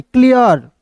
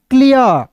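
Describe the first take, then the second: First: क्लियर said clearly as "klijər" with a crisp k; teacher's careful क्लियर; correct reading. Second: क्लियर said wrongly as plain "liə"; mispronounced क्लियर as a warning; wrong reading. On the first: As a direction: model the right क्लियर carefully. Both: Shown as a demonstration. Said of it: "क्लियर नहीं".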